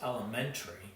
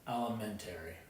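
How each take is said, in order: First: It is said in a local regional way. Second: Each syllable is said the way it's spelled. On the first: This is how it is said locally. "here in Arkansas, it's elementary. So it's the English pronunciation" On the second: This is how it is said up north. "I was taught to say it like it sounds, or it's spelled"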